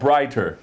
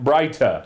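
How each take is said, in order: First: It is said in an American accent. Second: It is said in a London accent.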